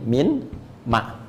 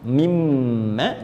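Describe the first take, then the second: First: Two separate words, the n sound kept. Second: One merged word, n assimilated into doubled m. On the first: This is the original underlying form. "Asalnya begini" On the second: This is the form read with the assimilation rule. "Tapi di sini ada hukum idgham"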